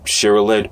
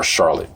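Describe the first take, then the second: First: "Charlotte" in three syllables, like SHER-uh-let; drawn-out pronunciation. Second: "Charlotte" in two syllables, like SHAR-lit; two-syllable pronunciation. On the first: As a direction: say "Charlotte" with an extra middle syllable. Weighs two pronunciations of Charlotte. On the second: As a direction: say "Charlotte" without a middle vowel, SHAR-lit. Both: Shown as a demonstration.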